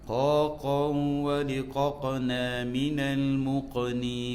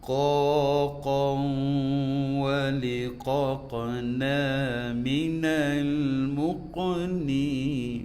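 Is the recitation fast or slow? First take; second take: fast; slow. First: It is recited at a fast pace. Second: It is recited at a slow pace. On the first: "kalau kita baca cepat" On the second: "Tu wazan lambat kan"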